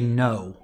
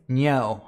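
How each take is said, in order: First: It is said in an American accent. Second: It is said in an Australian accent. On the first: "So an American would say" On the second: "but an Australian would say"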